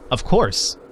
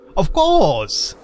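First: It is said in the speaker's normal voice. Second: It is said in an imitation of Bane's voice.

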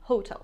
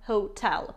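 First: The stress is on the first syllable. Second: The stress is on the second syllable. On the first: The speaker calls it wrong. "не hotel" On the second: The speaker calls it right. "ударение падает на второй слог"

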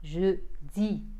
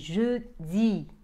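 First: The final vowel is a clear 'ee'. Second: The same.

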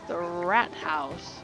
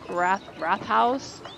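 First: The first part ends with a plain t sound. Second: The first part ends with a th sound. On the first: "I don't know if I'm even saying that correctly" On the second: "Maybe it's wrath house"

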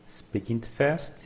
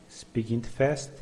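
Both takes have the same delivery.

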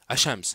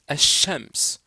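First: The sh sound is short, not held. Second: The sh sound is doubled and held longer. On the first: The speaker calls it wrong. "On ne va pas dire" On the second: The speaker calls it right. "On dit ... il se double ... on comprime un petit peu"

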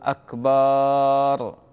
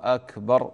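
First: The final vowel is drawn out. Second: The final vowel is short. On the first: It means drum. The speaker calls it wrong. "وهذا غلط" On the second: It means greater. The speaker calls it right. "هكذا الأذان الشرعي"

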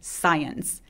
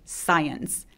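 First: The opening s sound is a drawn-out hiss. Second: The same.

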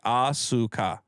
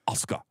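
First: All three syllables are pronounced fully. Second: The s and k are pushed together. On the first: "it would be three syllables" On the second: "they usually push it together"

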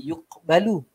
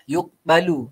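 First: The qaf has only a weak release. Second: The qaf has only a weak release.

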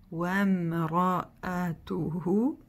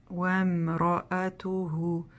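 The two takes are said the same way.

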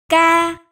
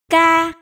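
The two takes are said the same way.

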